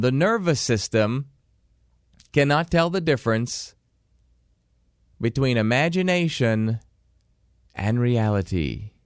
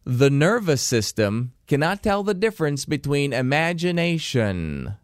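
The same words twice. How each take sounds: First: Slow, phrase by phrase with pauses; slow dictation pace, each phrase set apart; slower for dictation. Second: Said briskly in one breath; quick first pass of the key sentence; quick first read. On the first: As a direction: dictate it slowly so they can write. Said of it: "I'll say it slower so you can write it down". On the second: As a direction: run through it at normal speed. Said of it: "I'm gonna say it the first time quickly". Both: Shown as a demonstration.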